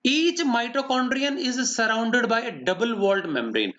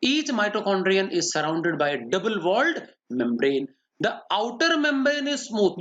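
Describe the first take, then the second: First: Very slow, word-by-word dictation; slow, even pace so every word can be copied; dictating notes. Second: Slow, word-by-word dictation, a bit quicker; repeating a dictated note. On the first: Teacher dictating a note to students, very slow. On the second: Teacher repeating the note for students, slow dictation. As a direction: read it back slowly for the students to check. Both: Shown as a demonstration.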